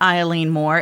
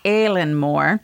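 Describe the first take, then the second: First: The name begins with an 'eye' vowel sound. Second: The name begins with a different vowel sound. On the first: The speaker calls it wrong. "it looks like Eileen" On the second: The speaker calls it right. "it's Aileen Moore"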